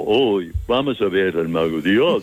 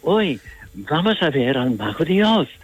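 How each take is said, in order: First: Put-on dopey fool's voice; playing dumb. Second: Wide-eyed, higher-pitched innocence; innocent. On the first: Actor shows Javier the wrong Scarecrow, playing dumb. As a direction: act the silly simpleton, sinking lower before a final lift. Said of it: "se hace tonto como". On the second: Actor demonstrates how the Scarecrow should sound, innocent. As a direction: say it with childlike wonder, pitch swooping up and down. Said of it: "si tú dices con inocencia". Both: Shown as a demonstration.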